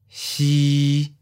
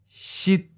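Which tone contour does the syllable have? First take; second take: mid flat; high stop. First: The pitch stays level at mid height. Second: The pitch is high and cut short. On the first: "Mid flat. Seventh tone" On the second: "High stop. Eighth tone"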